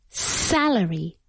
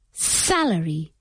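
No difference in how they are said.

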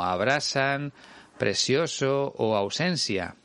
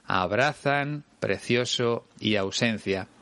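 First: "abrazan, precioso o ausencia" with s for z and c; seseo. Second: "abrazan, precioso y ausencia" with th for z and c; Spain-style th sound in "abrazan", "precioso", "ausencia"; Castilian distinción. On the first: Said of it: "hay muchos ejemplos de seseo". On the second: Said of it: "en lugar de". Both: Shown as a demonstration.

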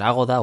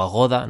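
First: Agoda with the stress on the opening A; stress on first A. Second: Agoda with the stress on the middle syllable. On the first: Podcaster unsure of the booking site's name, Agoda stressed on first A. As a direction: say AH-go-da, accent on the first syllable of Agoda. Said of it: "si llevara acento en la A". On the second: Podcaster unsure of the booking site's name, Agoda stressed on GO. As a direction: say a-GO-da, accent on the O of Agoda. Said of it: "así que es Agoda". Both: Shown as a demonstration.

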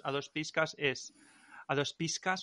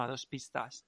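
First: "piscas" said with a k sound instead of t; mispronounced piscas. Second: "pistas" said correctly, with a clear st; corrected pistas. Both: Shown as a demonstration. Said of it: "no, a dos pistas".

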